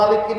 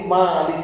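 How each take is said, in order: First: The first vowel is short. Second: The first vowel is long. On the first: It means owner. "maknya pendek" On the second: It means king. "maknya panjang"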